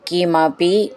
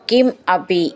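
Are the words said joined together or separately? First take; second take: joined; separately. First: The two words are merged into one. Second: The two words are said separately.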